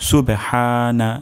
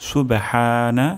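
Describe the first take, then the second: The two takes are said the same way.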